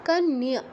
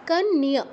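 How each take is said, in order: No difference in how they are said.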